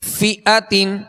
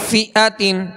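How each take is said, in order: The two takes are said the same way.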